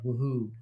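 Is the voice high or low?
low. It is said in a lower voice.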